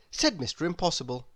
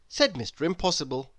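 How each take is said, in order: Both takes have the same delivery.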